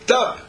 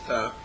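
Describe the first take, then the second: First: It is said firmly and urgently, with weight. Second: It is said lightly and casually, without urgency. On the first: The command is important. "stop, it's important" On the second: The command is not important. "In one way, stop, it's not important"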